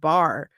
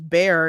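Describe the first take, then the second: First: The name is said with the vowel of 'bar'. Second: The name is said with the vowel of 'bear'. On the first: The speaker calls it right. "instead of bar" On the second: The speaker calls it wrong. "they're pronouncing it as bear"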